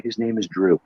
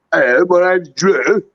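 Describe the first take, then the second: First: Said in the usual way. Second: High, slow, sing-songy mock Scouse; thick Scouse accent. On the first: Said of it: "I couldn't even understand how he pronounced it". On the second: British wrestling camper introduces himself, thick mock Scouse. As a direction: exaggerate a rolly Scouse lilt, loudly. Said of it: "super thick sort of Scouse British accent".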